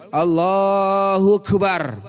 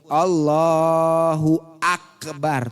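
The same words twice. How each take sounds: First: The glottal stop before akbar is left out. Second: A clear glottal stop is heard before akbar. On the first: The speaker calls it wrong. "Karena hamzahnya tidak dise disebut" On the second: The speaker calls it right. "Hamzahnya mesti kesebut"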